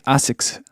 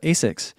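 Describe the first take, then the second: First: It is said with a Japanese pronunciation. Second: It is said with an American pronunciation. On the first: "when the Japanese say Asics, they say Asics" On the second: "in the United States we call it Asics"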